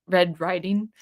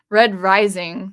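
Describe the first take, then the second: First: "Riding" said with a d sound instead of "Rising"; slip of the tongue. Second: "Red Rising" said slowly and louder, "Rising" with a clear z; careful correction. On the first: Vlogger misnaming the Red Rising audiobook, a slip of the tongue. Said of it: "Freudian slip there". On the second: Vlogger fixing his slip on the book title, a slow, careful correction. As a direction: correct yourself and land "Rising" firmly. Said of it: "that's kinda funny". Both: Real, not acted.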